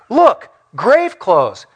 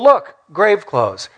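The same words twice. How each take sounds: First: It sounds puzzled and pondering, thinking hard. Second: It sounds like a casual, simple noticing. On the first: The speaker is trying to work out what it means. "Peter's like, he's trying to figure out what this all means" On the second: The speaker simply notices something. "John's like, oh"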